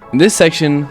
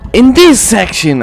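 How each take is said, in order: First: It is said in a normal speaking voice. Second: It is said in an exaggerated put-on voice.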